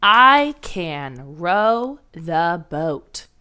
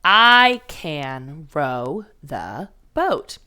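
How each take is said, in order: First: Very slow, word by word; dictating a sentence to the class; slow dictation. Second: Very slow, every word spaced apart; reading along with the first graders; slow choral reading. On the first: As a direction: spell out each word slowly for first graders. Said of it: "Our sentence goes like this". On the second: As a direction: lead the class through it slowly. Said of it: "Say it with me". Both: Shown as a demonstration.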